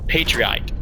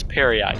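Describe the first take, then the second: First: The name sounds like the word patriot. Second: The name sounds like perry plus eyed. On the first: The speaker calls it wrong. "I always want to say Patriot" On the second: The speaker calls it right. "but it's Perry-eyed"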